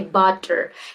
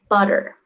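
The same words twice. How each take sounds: First: The word is said in a non-native way. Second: The word is said in a native-like way. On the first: The speaker calls it wrong. "It's like it sounds unnatural" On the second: The speaker calls it right. "sound like a native"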